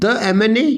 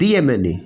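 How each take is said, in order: First: The word 'the' is said with a short 'thuh'. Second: The word 'the' is said with a long 'thee'. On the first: The speaker calls it wrong. "द को द M N A कहूँ" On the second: The speaker calls it right. "इसलिए आपने द को दी pronounce करेंगे"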